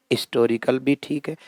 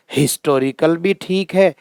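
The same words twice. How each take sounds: First: हिस्टोरिकल said as istorical, softer; silent H. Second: हिस्टोरिकल with an audible H; H sounded. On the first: Teacher allowing both forms, silent H in हिस्टोरिकल. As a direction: drop the H from हिस्टोरिकल. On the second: Teacher allowing both forms, H sounded in हिस्टोरिकल. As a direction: voice the H opening हिस्टोरिकल. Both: Shown as a demonstration. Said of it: "इनका जो है मानक उच्चारण".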